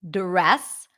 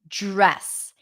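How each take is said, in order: First: It begins with a clear d sound. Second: It begins with a j-like sound. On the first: The speaker calls it wrong. "I'm not really pronouncing a D sound? I'm not saying dress" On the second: The speaker calls it right. "I'm saying j, j, j, dress. It's like a j sound"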